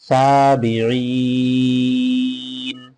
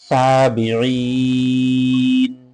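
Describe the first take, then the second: Both takes have the same delivery.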